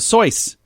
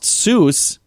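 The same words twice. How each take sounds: First: The vowel rhymes with voice. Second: The vowel rhymes with goose. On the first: The speaker calls it right. "it's supposed to rhyme with voice" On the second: The speaker calls it wrong. "it's not really pronounced Seuss"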